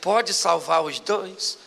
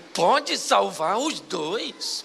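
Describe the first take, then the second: First: It is asked in a plain, confident tone. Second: It is asked in a doubtful tone.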